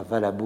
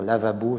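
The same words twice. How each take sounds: First: Lavabo with its first two syllables swapped, "valabo"; "valabo", a lapsus inverting la and va; syllable-swap slip. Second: Said in the usual way. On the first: Shown as a demonstration. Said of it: "erreurs d'in-, d'inversion d'ordre de syllabes". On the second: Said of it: "au lieu de dire lavabo".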